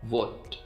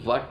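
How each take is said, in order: First: The vowel sounds like 'o', as in 'hot'. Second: The vowel sounds like 'uh', as in 'cut'. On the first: The speaker calls it right. "वट को हम British accent में वोट" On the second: The speaker calls it wrong. "वट को हम British में वट नहीं पढ़ेंगे"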